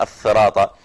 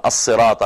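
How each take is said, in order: First: الثراط with "th" in place of the s; lisped s sound. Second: Said in the usual way. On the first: Shown as a demonstration. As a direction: lisp it as "ath-thirat" in الثراط. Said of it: "أو السين تاء". (نطق ألثغ بالثاء في الثراط) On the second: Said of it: "بدل ما يقول".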